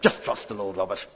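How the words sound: It sounds curt and dismissive. The speaker is offering an empty platitude. The speaker calls it wrong. "you're brandishing a faith platitude"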